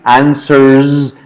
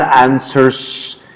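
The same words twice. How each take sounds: First: The word ends with a buzzing z sound. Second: The word ends with a hissing s sound. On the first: The speaker calls it right. "Z, z, that's the pronunciation" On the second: The speaker calls it wrong. "not answers"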